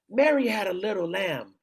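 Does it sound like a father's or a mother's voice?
mother's. It is said in a mother's voice.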